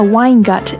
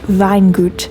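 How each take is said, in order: First: It sounds like the English words wine gut. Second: It is pronounced with German sounds. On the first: The speaker calls it wrong. "isn't the snobbier equivalent of a beer gut" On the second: The speaker calls it right. "It's pronounced something like Weingut"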